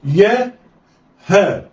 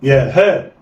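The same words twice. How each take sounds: First: يا and ها each alone with a pause; letters read separately. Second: يا ها snatched together; blended quickly. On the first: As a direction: sound out يا then ها. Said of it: "هقول إيه؟". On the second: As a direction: run يا and ها into one. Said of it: "يلا، اخطف". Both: Shown as a demonstration.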